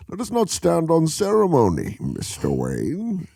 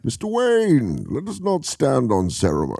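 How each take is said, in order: First: Villain impression, redone. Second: Light villain impression. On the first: Retrying the Bane quote after flubbing it. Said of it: "I screwed that up". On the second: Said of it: "Could you do it?".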